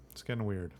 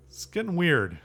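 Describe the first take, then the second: First: Quiet repeat. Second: "weird" said higher and louder, falling; emphatic. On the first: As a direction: mutter it back to yourself under the breath. Closing remark repeated. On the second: Wrapping up the episode to viewers, emphatic and raised. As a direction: punch "it's getting weird" up high. Closing remark said twice. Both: Real, not acted.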